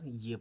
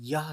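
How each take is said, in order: First: The word ends with an 'ay' vowel. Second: The word ends with an 'ah' vowel. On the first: The speaker calls it right. "ये पढ़ते हैं" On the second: The speaker calls it wrong. "यह ना कहकर"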